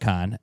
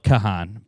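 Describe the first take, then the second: First: The name is said with one syllable. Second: The name is said with two syllables. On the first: This is how the name is really pronounced. The speaker calls it right. "but it's [name]" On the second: This is how the name looks when written. The speaker calls it wrong. "it's spelled [name]"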